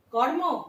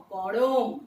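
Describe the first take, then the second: First: কর্ম with the r-cluster kept; কর্ম, joined consonants; as spelled. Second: করম, vowel breaking the cluster; করম in three clear sounds; করম, lower and easy; vowel inserted. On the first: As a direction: say কর্ম as written. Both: Shown as a demonstration. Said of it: "দেখো".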